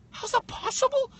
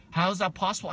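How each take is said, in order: First: Much higher, far mocking pitch; incredulous echo. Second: Said in the usual way. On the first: Guest echoes the interviewer's question back in disbelief. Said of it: "incredulous mocking echo". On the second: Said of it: "interviewer question then mocked".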